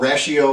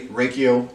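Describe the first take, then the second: First: The middle consonant is an sh sound. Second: The middle consonant is a k sound. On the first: "it's probably Rashio" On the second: "two different ways now"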